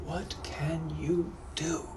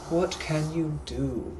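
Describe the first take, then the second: First: Slow, hushed British repeat; hushed British gentleman. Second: Slow, louder British musing; drawn-out mocking British question; British gentleman musing. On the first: Acted. Captor mulling the offer to himself, hushed British accent. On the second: Captor mocking the captive's offer, slow louder British accent. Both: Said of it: "I'm also a British gentleman from the eighteen hundreds".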